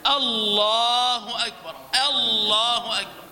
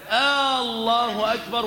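First: "الله أكبر" starting on a short crisp "أ", long "لا"; correct short first alif. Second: "الله أكبر" with a long drawn-out "آ" at the start; wrongly lengthened first alif. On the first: Teacher models the right adhan opening, short first alif. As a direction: begin "الله" with no stretch, then draw out its second syllable. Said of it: "وإنما الصواب". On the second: Teacher shows trainee muezzins a mistake, first alif wrongly stretched. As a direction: stretch the opening vowel of "الله" into "آه". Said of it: "ألا تقوم بمد ألف الوصل فتقول". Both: Shown as a demonstration.

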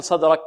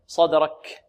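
First: صدرك with a cut-off ك; kaf without breath. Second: صدرك with air released on ك; breathy final kaf. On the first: Teacher showing what not to say, unaspirated kaf. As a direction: stop ك dead in صدرك, no air. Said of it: "لا نقول". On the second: Teacher modelling whispered kaf for students, aspirated ending. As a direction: let breath flow after ك in صدرك. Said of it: "همس الكاف". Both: Shown as a demonstration.

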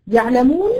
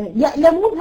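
First: "يعلمون" with a pharyngeal ayn, louder, rising; place of ayn. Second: "يألمون" with a glottal stop, higher pitch; place of hamza. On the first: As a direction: squeeze the ع of "يعلمون" in mid-throat. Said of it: "موضع العين". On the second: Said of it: "هذا هو موضع الهمزة". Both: Shown as a demonstration.

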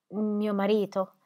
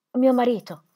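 First: Slow, faltering disbelief; stunned grief. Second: Higher, louder cry of grief; anguished cry. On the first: Widow realizing her husband is dead, slow stunned grief. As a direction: let it sink in slowly. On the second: Widow crying out for her dead husband, anguished. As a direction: break on the words. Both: A narrator's reading.

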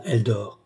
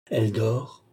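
First: Said in the usual way. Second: "Elle dort" lifted into a question; questioning echo. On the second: Acted. Brother seeks confirmation from the doctor, "Elle dort" rising in doubt. Brother asks whether it is true.

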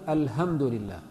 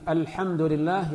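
First: "الحمد" said al-hamd, with a soft English-like h; ha mispronounced. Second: "الحمد" with the tight pharyngeal ح, slowly; careful pharyngeal h in "الحمد لله"; correct ha. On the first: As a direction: loosen the ح of "الحمد" into ه, lower pitch. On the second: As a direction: squeeze the throat for the ح of "الحمد". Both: Shown as a demonstration. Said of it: "الحاء بالهاء".

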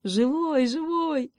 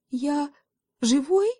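First: High, happy exclamation; delighted, high-pitched relief; joyful cry. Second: High, rising question in wonder; tentative, high-pitched amazement; astonished question. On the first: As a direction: cry it out overjoyed, each живой falling from a high start. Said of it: "радостно крикнул заяц". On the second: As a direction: ask it in disbelief, lifting sharply on живой. Dazed kid checks he survived. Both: A narrator's reading.

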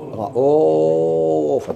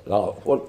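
First: رؤوف drawn out slowly with a long madd; رؤوف with a long vowel. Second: لرؤوف with the vowel kept short, no madd. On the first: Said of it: "الجمهور كيف يعملوا". (رؤوف بمد طويل) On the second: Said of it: "ما يمدوهاش". (لرؤوف بالقصر دون مد) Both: Shown as a demonstration.

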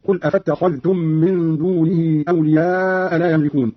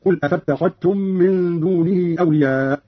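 First: Said in the usual way. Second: أفاتخذتم said "afattakhattum", no dh; slow recitation, أفاتخذتم ending in "-khattum"; dhal merged into ta. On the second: Shown as a demonstration. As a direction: double the t in place of dh in أفاتخذتم. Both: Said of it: "قرأ قالون بإضغام الذال في التاء".

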